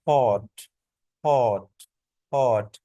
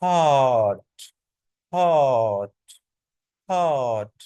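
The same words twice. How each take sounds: First: British हॉट with a short rounded o; brief, falling हॉट with an aw-like vowel; British pronunciation. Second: American हॉट stretched to haaat; long, falling हॉट, said as haat; long American vowel. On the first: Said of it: "British इसको बोलते हैं". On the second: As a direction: draw हॉट out with an open unrounded aa. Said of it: "long करके बोलते हैं". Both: Shown as a demonstration.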